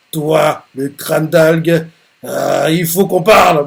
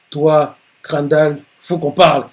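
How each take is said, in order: First: Mild angry threat. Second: A touch of irritation, slow on toi; lightly annoyed rival calling him out; understated annoyed threat. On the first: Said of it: "il est énervé, il fait". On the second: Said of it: "Il dit ça d'un air énervé". (menace à peine énervée) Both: Acted.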